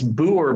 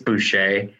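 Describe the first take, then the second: First: The 'ch' sound in the middle is silent. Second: The 'ch' sound in the middle is pronounced.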